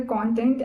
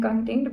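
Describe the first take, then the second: First: CONTENT with full o, stressed CON-tent; "content" as in subject matter, stress up front; first-syllable stress. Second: CONTENT said kun-TENT, weak first vowel; reduced "con", weight on "tent" in "content"; second-syllable stress. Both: Shown as a demonstration. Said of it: "the difference between".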